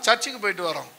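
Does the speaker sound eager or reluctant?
reluctant. It is said in a grudging, unwilling tone. The speaker does not want to go and goes only out of duty. The speaker calls it wrong.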